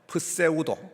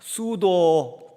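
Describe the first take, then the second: First: The word begins with a sounded p. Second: The word begins with s, p silent. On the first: "프세우도라고 하는 헬라어입니다" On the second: "이 프 하는 것이 무공으로 발음이 되어 가지고 지금 영어 성, 영어에서는 수도라고"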